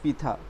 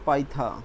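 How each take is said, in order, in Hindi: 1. पहला अक्षर 'pee' जैसा सुनाई देता है। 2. पहला अक्षर 'pie' जैसा सुनाई देता है। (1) "नॉट पीथा" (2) "पाइथा, नॉट पीथा"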